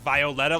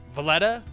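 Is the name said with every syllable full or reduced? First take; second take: full; reduced. First: Every syllable of the name is fully pronounced. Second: The name is said quickly with syllables reduced. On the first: "like that's super overpronounced" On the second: "Would you just say like"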